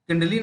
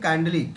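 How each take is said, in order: First: The first vowel is short, like in 'it'. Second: The first vowel is long, like in 'eye'. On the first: The speaker calls it wrong. "किंडली नहीं" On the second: The speaker calls it right. "काइंडली, के I N D L Y, ये होना चाहिए"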